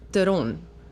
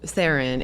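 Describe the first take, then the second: First: The name is said with South African pronunciation. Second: The name is said with Americanized pronunciation. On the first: This is the original form of the name. "the real pronunciation of my name" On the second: This form is easier for Americans. "it would be easier for Americans"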